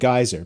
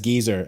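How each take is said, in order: First: The word does not sound like 'geezer'. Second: The word sounds exactly like 'geezer'. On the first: "this is my pronunciation" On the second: "pronounced geyser as geezer"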